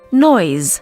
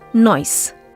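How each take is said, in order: First: The word ends with a z sound. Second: The word ends with an s sound. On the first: The speaker calls it right. "should actually be pronounced with a Z sound" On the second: The speaker calls it wrong.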